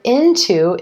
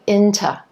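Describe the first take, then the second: First: The second syllable has a full vowel. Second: The second syllable is reduced to a t sound. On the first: "the word into is becoming" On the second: "That to is reducing down to t"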